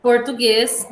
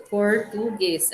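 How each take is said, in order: First: Said in the usual way. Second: "Português" slowly split as por, tu, guês; syllable by syllable. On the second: Shown as a demonstration. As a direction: dictate "Português" in three separate beats. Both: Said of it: "do jeito que a gente separa".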